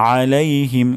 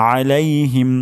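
No difference in how they are said.

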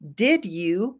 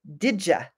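First: The two words are said separately and fully. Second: The two words blend into one with a j sound.

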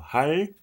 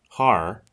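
First: The final consonant falls between L and R. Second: The final consonant is an English R. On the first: The speaker calls it right. "it's a bit of both. And neither at the same time" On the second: The speaker calls it wrong. "And if you say it's R, har, that's not it either"

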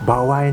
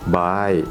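First: It is said with a w glide between vowels. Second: It is said with no glide between vowels. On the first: "เคยเจอคนบางคนเนี่ยพูดคำว่าbawai" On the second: "อันแรกที่เราใช้กันอยู่เรื่อยๆในห้องเรียน"

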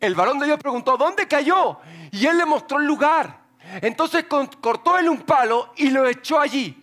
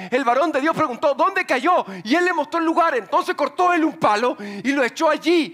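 No difference in how they are said.

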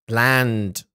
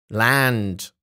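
Both takes have the same delivery.

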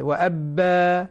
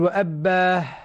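First: The final vowel stops cleanly without breath. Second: The final vowel ends with an audible breathy h. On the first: The speaker calls it right. "إذا خرج النفس مع الألف صارت هاء" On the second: The speaker calls it wrong. "ما نقول وأبا"

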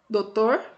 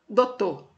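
First: The word is said without the U sound. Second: The word is said without the final R. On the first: "sem o U" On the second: "sem o R também"

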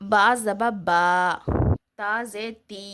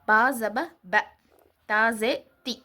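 First: The vowels are stretched out long. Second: The vowels are said short and quick. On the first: The speaker calls it wrong. "அந்த மாதிரி நீட்டக்கூடாது" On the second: The speaker calls it right. "அப்படி நம்ம வந்து டக்குன்னு சொல்லிடணும்"

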